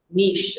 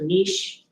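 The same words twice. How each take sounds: First: The name is said in a more exotic-sounding way. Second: The name is said in a plain, ordinary way.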